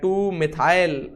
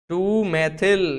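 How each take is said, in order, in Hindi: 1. मिथाइल का दूसरा स्वर लंबा है, 'mithail'। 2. मिथाइल के दो अक्षर हैं, 'maithil'।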